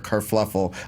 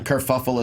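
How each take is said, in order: First: The word has an extra L sound after the F. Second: The word has no L sound after the F. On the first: The speaker calls it wrong. "I'm adding an extra L" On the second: The speaker calls it right. "Kerfuffle is proper"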